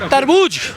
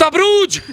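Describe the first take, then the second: First: The r sound comes before the b sound. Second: The r sound comes after the b sound. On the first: The speaker calls it right. "एक बार बोलो तरबूज" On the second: The speaker calls it wrong. "अब सुनो तेजस्वी यादव क्या बोलता है"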